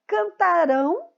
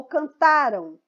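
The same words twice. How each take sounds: First: Cantarão drawn out, weight landing on the final RÃO; cantarão as a future form, ending stressed and rising; stress on the final syllable. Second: Cantaram slowly, punching the middle TA and letting the ending fall; stress on TA. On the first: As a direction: say cantarão slowly, lifting hard on the last syllable. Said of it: "a pronúncia correta aqui". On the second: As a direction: hit TA in cantaram, drop the final syllable. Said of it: "a sílaba mais forte aqui em cantaram é o tá". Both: Shown as a demonstration.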